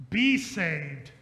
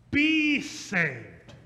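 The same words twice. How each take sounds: First: "Be saved" with a punched be; stress on be. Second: "Be saved" with a stressed be. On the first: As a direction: hit "Be" in "Be saved". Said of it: "Save yourselves puts the work on you". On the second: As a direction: lean on "Be" in "Be saved". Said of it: "It should actually say". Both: Shown as a demonstration.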